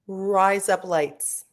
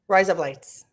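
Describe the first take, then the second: First: It is said at normal speed. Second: It is said very fast.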